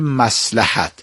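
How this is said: It is said with a Persian pronunciation. "ما میگویم مصلحت"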